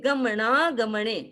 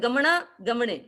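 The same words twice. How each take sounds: First: The aa vowel is given extra strength. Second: The aa vowel is plain and not strengthened. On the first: The speaker calls it right. "ये गमना गमने। इसका उच्चारण हम करेंगे तो हमें खुद को पता चलेगा यहाँ आ शब्द है" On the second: The speaker calls it wrong. "एक तो होता है गमना गमने, ऐसे नहीं है"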